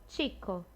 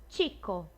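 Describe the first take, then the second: No difference in how they are said.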